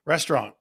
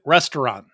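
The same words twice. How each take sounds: First: Restaurant said as "restrahn", middle vowel dropped, no final t; his own way of saying restaurant. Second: Restaurant said in three syllables, "res-ter-ahnt"; full standard pronunciation. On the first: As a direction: say restaurant as "res-trahn", nasal ending. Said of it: "Do I say it funny or not?". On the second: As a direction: pronounce every vowel of restaurant and finish on a clear t. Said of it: "A little bit". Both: Shown as a demonstration.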